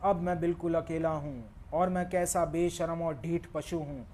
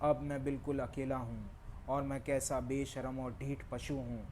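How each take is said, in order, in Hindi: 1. पंक्ति तेज़ आवाज़ में बोली गई है। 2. पंक्ति मध्यम आवाज़ में बोली गई है। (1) "अब थोड़ा और वॉल्यूम बढ़ाता हूँ। मेरा पिच और स्पीड वही है।" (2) "अब थोड़ा वॉल्यूम और बढ़ाता हूँ।"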